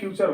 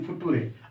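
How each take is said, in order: First: The middle sounds like 'ch', as in 'fyoocher'. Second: The middle is a plain 't', as in 'footooray'. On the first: The speaker calls it right. "आप आराम से कहेंगे कि इसका फ्यूचर होगा" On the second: The speaker calls it wrong. "लेकिन आप ऐसे नहीं कहेंगे ... आर ई से फुटूरे"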